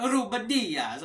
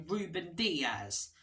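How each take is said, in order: First: Ruben Dias with a hammed-up Italian flair, higher and louder; Italian accent. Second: Slow, lightly Italian-tinged Ruben Dias; a hint of Italian. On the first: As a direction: roll it out like an Italian commentator. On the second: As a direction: say the name with a trace of Italian. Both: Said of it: "saying it like an Italian".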